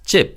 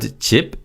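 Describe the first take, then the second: First: The first consonant is tense and stronger. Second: The first consonant is plain and relaxed. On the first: "is often pronounced as 집 when it combines with other nouns" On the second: "the word 집"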